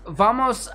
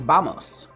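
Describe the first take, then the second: First: The word starts with a V sound. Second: The word starts with a soft B sound.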